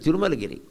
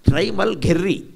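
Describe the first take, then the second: First: Every syllable is said fully: ti-ru-ma-la-gi-ri. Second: Vowels are dropped, giving trai-mal-gher-ry. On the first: The speaker calls it right. "ఎంత గొప్ప పేరండి!" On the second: The speaker calls it wrong. "తిరుమలగిరికి ఇంత దరిద్రపు spelling ఉండాలా?"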